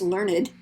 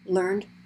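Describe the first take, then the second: First: The word is said as two syllables. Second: The word is said as one syllable. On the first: It is an adjective meaning educated. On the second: It is the past form of the verb.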